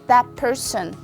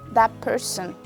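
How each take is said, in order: First: The words are linked; 'that' ends in p. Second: The same.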